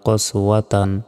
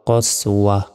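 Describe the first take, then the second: First: The word ends with a full tan syllable. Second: The word ends with a short h sound. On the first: The reading continues without stopping. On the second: The reading stops on this word.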